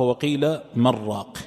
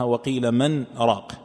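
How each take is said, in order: First: "وقيل من راق" with the nun merged into the ra, said "مرّاق"; slow, doubled ra in "مرّاق"; assimilated reading. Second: "وقيل من راق" with a clear nun before "راق"; slow, the nun of "من" sounded plainly; separate nun, wrong. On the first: Sheikh shows the majority reading to students, nun merged into ra. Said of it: "تقرأها". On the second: Sheikh shows the wrong way, nun said clearly. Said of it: "لا تقرأها". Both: Shown as a demonstration.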